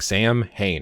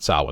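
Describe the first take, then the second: First: The word is read out just as spelled. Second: The word is said in its Irish form. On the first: The speaker calls it wrong. "just reading the word, I would think" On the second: The speaker calls it right.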